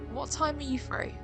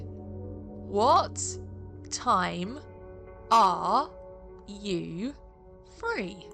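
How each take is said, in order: First: The question is spoken at a normal pace. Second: The question is spoken slowly and deliberately.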